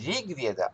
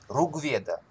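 First: The first syllable has an i-like vowel. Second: The first syllable has a u-like vowel. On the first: This is how it is not said in the south. "Не Ригведа" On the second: This is how it is said in the south, in Trivandrum. "Говорят, например, в Тривандруме. Ругведа"

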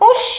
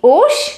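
First: It is exclaimed with a falling end. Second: It is asked as a rising question.

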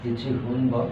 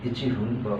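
No difference in how they are said.

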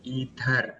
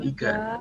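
First: The middle consonant is a d sound. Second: The middle consonant is a g sound. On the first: The speaker calls it right. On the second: The speaker calls it wrong. "Bukan igar, bukan igar ya"

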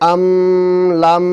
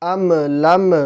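First: The m is held with a nasal hum. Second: The m ends with an echoing bounce. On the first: "আম লাম এরকমও বলা যাবে না, গুনাহ তো মোটেই করা যাবে না" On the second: "এখানে আম লাম এরকম বলা যাবে না, কলকলা হয়ে যাবে"

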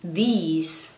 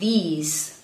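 The two takes are said the same way.

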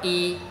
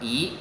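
First: The syllable is said with a high level tone. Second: The syllable is said with a rising tone. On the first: "thì vẫn đọc là y" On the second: "phải đọc là thanh hai, đọc là ý"

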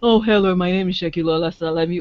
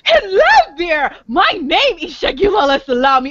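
First: It is said in a flat monotone. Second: It is said in a lively, exciting way.

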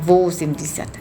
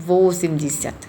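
The two takes are said the same way.

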